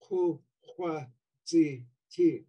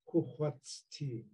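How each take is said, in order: First: All four syllables keep their vowels. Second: The vowel of the third syllable drops out. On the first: This is the underlying form. "really what you have in underlying is" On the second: This is the Southern dialect form. "in Southern Tlingit, the I of zi drops out"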